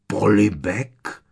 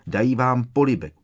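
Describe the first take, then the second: First: Loud, drawn-out POLIBEK, rising as a question; stunned, slow "Polibek?" with rising end; incredulous echo. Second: Said in the usual way. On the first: A narrator's reading. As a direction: stretch "Polibek" in loud disbelief. Opakoval strýc Vernon.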